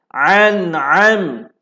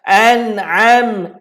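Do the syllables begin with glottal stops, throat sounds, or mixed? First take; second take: throat sounds; glottal stops. First: Both syllables begin with a pharyngeal throat sound. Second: Both syllables begin with a glottal stop. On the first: "Dia sebut dua-dua ain" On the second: "Ada yang sebut dua-dua hamzah"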